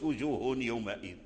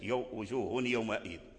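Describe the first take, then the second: First: The n sound is pronounced clearly before the y. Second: The n sound merges nasally into the y. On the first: The speaker calls it wrong. "ما تقولش وجوه يومئذ، هذه قراءة فيها لحن ولا تجوز" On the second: The speaker calls it right. "والغنة والإدغام الناقص التنوين دخل في الياء"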